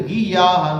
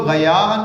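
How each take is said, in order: First: غیاہن with a hard g and i, giyahan; غیاہن opening on a plain g; غیاہن as gi-ya-han; second reading. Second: غیاہن with a throaty gh, ghayahan; غیاہن opening on a guttural gh; غیاہن as gha-ya-han; first reading. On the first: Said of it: "کچھ غیاہن پڑھتے ہیں". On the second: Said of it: "کچھ لوگ غیاہن پڑھتے ہیں". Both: Shown as a demonstration.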